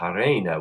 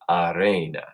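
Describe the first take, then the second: First: The word begins with an h sound. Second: The word begins without an h sound. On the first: "instead of" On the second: "Some Romans, would say"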